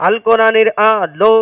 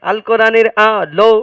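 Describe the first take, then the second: No difference in how they are said.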